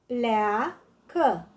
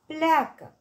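First: "Pleacă" drawn into two beats, plea-că; syllable by syllable. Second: Said in the usual way. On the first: Shown as a demonstration. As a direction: split "Pleacă" with a gap: plea, că. („Pleacă” despărțit în silabe: plea-că) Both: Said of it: "Desparte în silabe cuvintele date".

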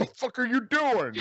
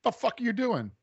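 First: High, louder French Canadian snarl; French Canadian accent. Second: High, loud French Canadian snarl; French Canadian accent. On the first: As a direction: shout it again in thick French Canadian. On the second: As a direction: bark it like an angry Quebecois. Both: Retold or imitated. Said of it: "really good French Canadian accent".

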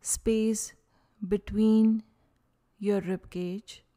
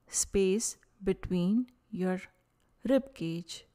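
Both takes have the same delivery.

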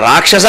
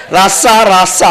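First: Said in the usual way. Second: రాస్స with the ksha collapsed into double s; laughing mimicry of రాస్స, middle syllable dropped; mock mispronunciation. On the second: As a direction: imitate failing to say rakshasa, giving రాస్స. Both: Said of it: "రాక్షస పలకడం చేతనైతే కదా".

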